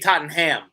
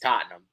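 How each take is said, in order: First: The middle H sound is pronounced. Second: The middle H sound is left silent. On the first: The speaker calls it wrong. "if you say Tottenham, you're getting cooked for it" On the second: The speaker calls it right. "You just don't say the H"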